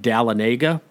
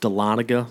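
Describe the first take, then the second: First: The name is said the way outsiders say it. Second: The name is said the way locals say it. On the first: The speaker is not from the area. The speaker calls it wrong. "the new weather guy on the news because he would say" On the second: The speaker knows the area. The speaker calls it right. "It's actually pronounced"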